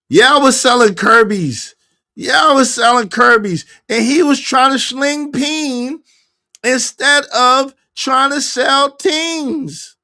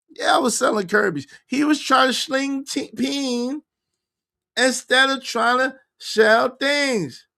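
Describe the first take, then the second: First: Loud, slow, high-pitched retelling. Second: Said in the usual way. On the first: Retold or imitated. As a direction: belt it out, dragging the end. Repeats a quote in a loud voice.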